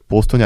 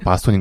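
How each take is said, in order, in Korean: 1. 첫 모음은 둥근 'o' 소리예요. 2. 첫 모음은 열린 'a' 소리예요. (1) "보스톤이 아니고" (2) "바스톤인 것처럼"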